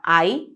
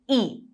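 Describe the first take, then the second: First: The letter is named with English pronunciation. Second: The letter is named with German pronunciation. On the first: "the English letter I" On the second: "which again in German is pronounced E"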